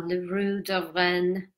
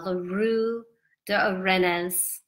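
First: "Rue de Rennes" slowly, with a French "Rue" and "Rennes" as a silent-s "ren"; careful second try at "La Rue de Rennes", "Rennes" just "ren"; corrected French pronunciation. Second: "Rue de Rennes" slowly with an English r, "Rennes" said as "REN-nuhz"; clumsy tourist French on "La Rue de Rennes", "Rennes" with a spoken final s; bad French pronunciation. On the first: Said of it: "is probably how it's supposed to be pronounced". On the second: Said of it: "Terrible, terrible French accent". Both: Shown as a demonstration.

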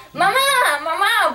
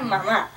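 First: Retold yell for mom, high on the second call; calling mom in a panic, mock yell. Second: Said in the usual way. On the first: Girl yelling for her mom during a break-in, mock panicked yell. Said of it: "empiezo a gritar". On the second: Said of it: "se me ocurría gritar".

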